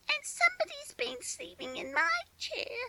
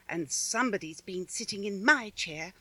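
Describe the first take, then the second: First: It is a squeaky, shrill little voice. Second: It is a medium-pitched, middle-sized voice.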